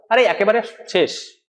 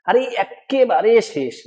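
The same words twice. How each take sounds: First: Said in the usual way. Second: Slow, with the k of একেবারে doubled and leaned on; emphatic. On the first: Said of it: "normal". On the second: Shown as a demonstration. Teacher showing forceful speech, emphatic. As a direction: stretch একেবারে out, pressing a double k. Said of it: "মানে জোর দিয়ে বলছি".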